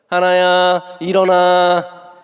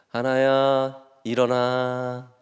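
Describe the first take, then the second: First: The pitch shifts higher and sounds tense. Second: It stays on one steady, calm pitch. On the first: The child starts to feel uneasy. The speaker calls it wrong. "이게 소리 되면 약간 이제 긴장하면" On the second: The child wakes feeling secure. The speaker calls it right. "미미미 미미미 이게 제일 좋은 방법이래요"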